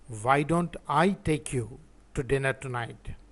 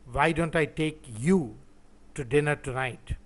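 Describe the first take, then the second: First: The stress is on "I". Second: The stress is on "you".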